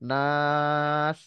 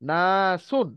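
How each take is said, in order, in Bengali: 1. শেষ অংশটা বাদ যায় আর স্বরটা লম্বা টানা হয়। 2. শব্দটি শেষ অংশসহ পুরোটা বলা হয়।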